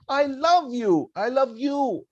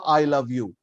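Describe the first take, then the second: First: "love" lifted higher and stretched; stress on love. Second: "I" weighted first; stress on I. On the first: Teacher shows class stress on "love". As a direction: push "love" up high in "I love you". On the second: Teacher shows class stress on "I". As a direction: lean on "I" in "I love you". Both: Shown as a demonstration. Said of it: "the way you put emphasis on each word".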